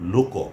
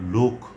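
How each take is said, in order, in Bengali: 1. শব্দটি শেষে যোগ করা o স্বরধ্বনি দিয়ে শেষ হয়। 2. শব্দটি k ব্যঞ্জনধ্বনি দিয়ে শেষ হয়। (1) "আমরা বলবো লোক" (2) "কোনো অবস্থাতেই আমরা লোক বলবো না"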